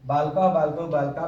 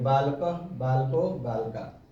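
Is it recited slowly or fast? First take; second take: very fast; slowly. First: The forms are recited very fast. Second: The forms are recited slowly.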